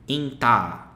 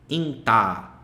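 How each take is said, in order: First: The final vowel is held long. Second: The same.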